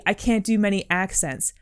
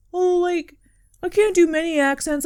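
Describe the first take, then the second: First: Said in the usual way. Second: High, apologetic imitation; meek self-deprecation. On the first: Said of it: "Don't say". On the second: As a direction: mimic someone underselling themselves, pitched way up. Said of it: "you said something like".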